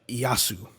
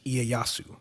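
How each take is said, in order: First: The name has an American dub-style pronunciation. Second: The name has a Japanese-style pronunciation. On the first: This is how the dub said the name. The speaker calls it wrong. "they were pronouncing it like" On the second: This is the usual way to say the name. The speaker calls it right. "I've always heard that name pronounced is"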